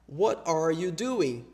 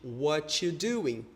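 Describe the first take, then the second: First: Every word is said, including 'are'. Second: 'Are' is dropped and 't y' blends into 'ch'. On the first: "o que fica implícito é what are you doing?" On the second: "você acaba produzindo esse che"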